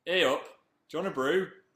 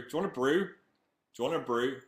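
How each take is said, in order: First: Hey up and brew in a broad Northern accent, higher and louder. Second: Northern accent. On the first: Fan asks for brew, broader Northern. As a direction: really lay the Northern accent on. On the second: Fan asks for brew, Northern offer. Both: Shown as a demonstration. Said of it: "Say brew".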